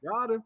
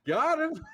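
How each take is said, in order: First: High, gleeful "Got him"; gleeful catchphrase. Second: High, loud "Got him!"; gleeful shout. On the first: Retold or imitated. Him winning a pot and gloating, gleeful high catchphrase. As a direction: toss it off like a triumphant jab. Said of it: "I'm like". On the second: Shown as a demonstration. Demonstrating the catchphrase for the host, a loud gleeful shout. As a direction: shout it like a triumphant taunt. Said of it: "shouldn't use it live".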